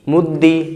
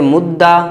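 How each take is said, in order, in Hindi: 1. दोहरा व्यंजन i स्वर पर खत्म होता है। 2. दोहरा व्यंजन a स्वर पर खत्म होता है। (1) "कसरा" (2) "दूसरे को फ़तह"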